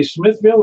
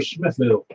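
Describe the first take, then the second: First: "Smithville" with a distinct second syllable; full-ville pronunciation. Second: "Smithville" in the alternative local way, ending reduced; alternative local pronunciation. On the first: Net host checking the town's name, full-ville pronunciation. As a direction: say "Smithville" as spelled, ville sounded fully. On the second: Net host checking the town's name, local pronunciation. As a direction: say "Smithville" with a lighter second syllable. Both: Shown as a demonstration. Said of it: "did you say Smithville or Smithville".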